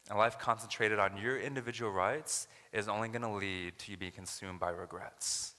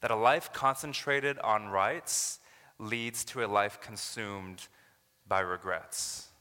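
First: Said in the usual way. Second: Slow, weighty, every word pressed; slow emphatic key line. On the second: Shown as a demonstration. Preacher to congregation, slow and emphatic. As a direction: land the sermon's main point slowly. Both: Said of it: "this is what I want you to remember".

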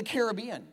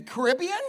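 First: "Caribbean" stressed on BEE; care-a-BEE-an. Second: "Caribbean" stressed on RIB; ca-RIB-bean. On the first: Pastor polling the room: care-a-BEE-an. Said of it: "or the Caribbean". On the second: Pastor polling the room: ca-RIB-be-an. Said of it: "is it the Caribbean". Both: Shown as a demonstration.

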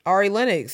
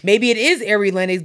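First: "Ari" said AR-ee, as in car; AR-ee pronunciation. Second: "Ari" said AIR-ee, first vowel as in air; AIR-ee pronunciation. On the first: Cohost shows the DC way, AR-ee pronunciation of "Ari". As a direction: open "ah" to begin "Ari". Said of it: "because she's from D C". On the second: Cohost weighs the other option, AIR-ee pronunciation of "Ari". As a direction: say "Ari" to rhyme with "fairy". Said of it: "but because she's from D C". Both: Shown as a demonstration.

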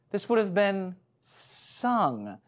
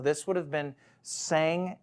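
First: Slow, with "sung" drawn out and set apart; pause, then land firmly on "sung"; deliberate correction. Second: Said in the usual way. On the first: Real, not acted. Preacher settling on the right word, deliberately stressing "sung".

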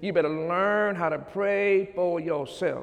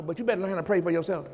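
First: "learn" and "pray" drawn out with weight; deliberate emphasis. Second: Rushed, run-together words; quick aside. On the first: Preacher repeating advice to pray for yourself, deliberate emphasis. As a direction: spell out "learn how to pray for yourself" unhurriedly, word by word. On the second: Preacher advising those who have his number, quick aside. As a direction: rattle off "you better learn how to pray for yourself" fast. Quick first take before emphatic repeat. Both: Real, not acted.

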